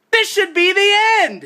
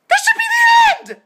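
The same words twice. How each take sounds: First: High, exasperated shout; angry yell. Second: Very high, loud, all-out shriek; furious scream. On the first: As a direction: shout it in outrage, still in control. Outraged at post-credit scene. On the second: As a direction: lose it completely and scream. Repeats it, screaming. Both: Real, not acted.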